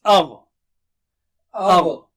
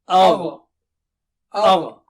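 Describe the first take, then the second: Both takes have the same delivery.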